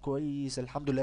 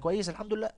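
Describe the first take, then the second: First: It is said slowly. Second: It is said fast.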